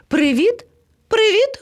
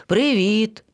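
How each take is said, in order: First: High, rising greeting calls; calling out. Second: Lion cub replying. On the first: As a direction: hail friends from afar, pitched up. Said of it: "гукнув до них". (гукати високим голосом) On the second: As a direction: answer the hail calmly. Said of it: "відповіло левеня". (спокійна відповідь левеняти) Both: A narrator's reading.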